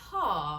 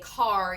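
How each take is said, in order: First: The final r sound is dropped. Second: The final r sound is clearly pronounced. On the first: The speaker calls it right. "a usual British accent, you know, ... you're going to say caw" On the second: The speaker calls it wrong. "you're not going to say car"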